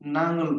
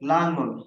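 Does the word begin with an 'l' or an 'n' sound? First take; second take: n; l. First: The word begins with an n sound. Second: The word begins with an l sound. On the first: Many people say it this way. "অনেকে নাঙল বলে" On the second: This is the standard form. "লাঙলকে"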